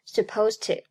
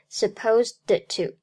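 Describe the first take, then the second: First: The d before 'to' is held, not released. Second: The d before 'to' is fully released. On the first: The speaker calls it right. "爆破音的失去爆破，而读作supposed to" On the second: The speaker calls it wrong. "不读作supposed to"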